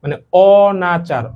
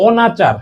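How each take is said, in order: First: অনাচার stretched slowly, open mouth on অ; drawn-out অনাচার with a wide-open mouth; slow model pronunciation. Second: অনাচার said slowly with a clear open অ; teacher models অনাচার for students; saying the word clearly. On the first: Teacher repeats অনাচার slowly for students to copy. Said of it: "তোমরা নিজেরা একটু try করো". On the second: Teacher models অনাচার for students to copy. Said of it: "এনে বলা হইছে". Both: Shown as a demonstration.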